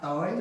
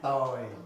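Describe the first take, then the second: First: The pitch rises on the word. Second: The pitch falls on the word. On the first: "it's going up" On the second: "And now it's going down"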